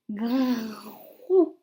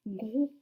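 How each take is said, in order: First: "grou" split, long "grrr" then "ou"; drawn-out syllable. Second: Said in the usual way. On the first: Shown as a demonstration. Teacher dictating a third syllable, sounded out slowly. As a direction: hold the r in "grou" before releasing the vowel. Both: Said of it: "Vous m'écrivez".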